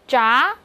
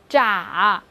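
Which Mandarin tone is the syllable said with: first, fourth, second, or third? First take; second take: second; third. First: The pitch rises from mid to high. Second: The pitch dips low and then rises.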